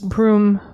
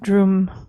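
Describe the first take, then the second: First: The syllable begins with a B sound. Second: The syllable begins with a D sound. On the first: This is the Sanskrit pronunciation. "The Sanskrit is Brum" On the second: This is the Tibetan pronunciation. "in Tibetan you tend to pronounce that Drum"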